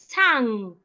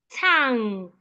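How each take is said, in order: Both takes have the same delivery.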